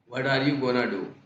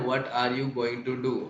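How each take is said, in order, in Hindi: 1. 'going to' को घटाकर एक छोटा शब्द बना दिया जाता है। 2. 'going to' पूरे दो शब्दों की तरह पूरा बोला जाता है।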